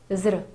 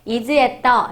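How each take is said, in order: First: The words are mumbled quickly, mouth barely open. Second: Each word is said fully and clearly.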